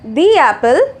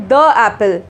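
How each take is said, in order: First: 'The' has a long vowel, like 'thee'. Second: 'The' has a short weak vowel, like 'thuh'. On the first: The speaker calls it right. "but we say the apple" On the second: The speaker calls it wrong. "we don't say the apple"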